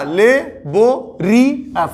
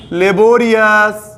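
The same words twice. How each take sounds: First: laborious split into four slow, separate syllables; laborious chopped up slowly as le, bo, ri, yas; broken into syllables. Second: Said in the usual way. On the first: Shown as a demonstration. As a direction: say laborious syllable by syllable, pausing between each. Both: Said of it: "चार चार syllable यहाँ पे टूट रहा".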